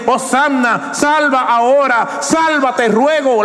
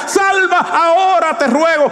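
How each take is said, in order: First: A raised, pleading prayer; earnest plea. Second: Much higher, shouted plea; desperate cry. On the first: Preacher voicing the crowd's hosanna, earnest plea. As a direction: plead it, not yet crying out. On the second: Preacher showing the crowd's desperate cry, shouting. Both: Shown as a demonstration. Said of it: "es un grito de desesperación".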